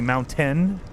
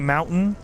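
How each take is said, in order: First: The word is said with careful, clear enunciation. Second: The word is said loosely, without careful enunciation. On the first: "I say mountain" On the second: "I don't say mountain"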